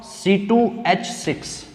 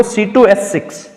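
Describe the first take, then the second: First: Softer, slow, spaced-out formula; slow dictation. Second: Said in the usual way. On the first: Real, not acted. Teacher repeating formula for students, slow dictation. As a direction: spell out C टू H six slowly, piece by piece.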